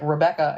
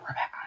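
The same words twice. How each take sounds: First: The name is said in a normal voice. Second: The name is whispered.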